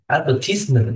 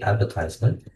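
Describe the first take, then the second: First: It is said with the British pronunciation. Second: It is said with the American pronunciation. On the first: "is a pronunciation of British people" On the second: "In American English, we say"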